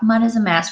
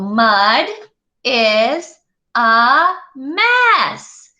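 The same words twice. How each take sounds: First: It is said flatly, like ordinary talk. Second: It is said with lively expression.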